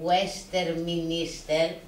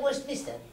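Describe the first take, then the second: First: Every written letter is pronounced in full. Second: Some written sounds are dropped or reduced. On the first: This follows the written form. The speaker calls it wrong. "δεν λένε Westminster που γράφεται" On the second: This is how people actually say it. The speaker calls it right. "λένε Westminster"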